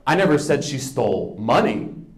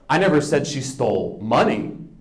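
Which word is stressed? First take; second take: money; money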